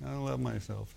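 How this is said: It is said hesitantly and reluctantly.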